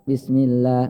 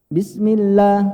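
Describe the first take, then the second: First: The voice stays flat on the doubled l. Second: The voice is raised on the doubled l. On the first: The speaker calls it wrong. "enggak bismillah, enggak gitu" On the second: The speaker calls it right. "Jadi perlu ngangkat Pak"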